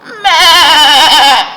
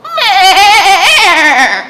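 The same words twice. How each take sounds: First: High loud meh with a laugh; better goat bleat. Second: High loud laughing meh; goat bleat. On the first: Storyteller's second try at Goat's bleat. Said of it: "That's better". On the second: Storyteller bleating as Goat, laughing. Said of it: "That's not a very good goat". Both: Shown as a demonstration.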